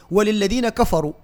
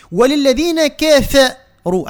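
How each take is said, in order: First: كفروا with a thick, open "ka-fa"; everyday unchanted كفروا with darkened vowels; habitual heavy pronunciation. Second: Slow recited وللذين كفروا with thin, fronted vowels in كفروا; careful tajweed كفروا, thin and measured; light, correct kaf. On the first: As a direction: say وللذين كفروا plainly, heavy vowels on kaf and fa. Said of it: "في لهجتنا اللي غالب علينا نحن هو التفخيم". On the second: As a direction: draw out كفروا, louder syllables with a light "ke-fe". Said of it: "عادة ما نحن نقول". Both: Shown as a demonstration.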